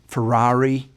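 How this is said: It is said with an American accent. "A lot of Americans may say"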